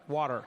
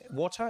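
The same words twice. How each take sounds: First: It is said in an American accent. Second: It is said in a non-American accent.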